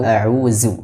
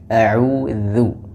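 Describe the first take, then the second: First: The middle consonant is a 'z' sound. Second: The middle consonant is a 'th' sound as in 'this'. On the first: The speaker calls it wrong. "atau a'uzu" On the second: The speaker calls it right. "tapi a'udzu"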